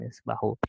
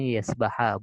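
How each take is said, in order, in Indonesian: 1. Kata ini berakhir dengan vokal 'u'. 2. Kata ini berakhir dengan vokal 'a'. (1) "bukan yes bahu" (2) "maka yes dibacanya yes baha"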